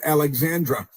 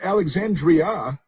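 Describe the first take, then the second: First: The name has no 'ee' sound before the end. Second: The name has an 'ee' sound before the end. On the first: The speaker calls it wrong. "not Alexandra" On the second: The speaker calls it right. "it's Alexandria"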